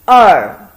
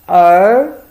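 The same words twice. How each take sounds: First: The pitch falls sharply. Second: The pitch rises. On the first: It means two. "fourth tone" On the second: It means son.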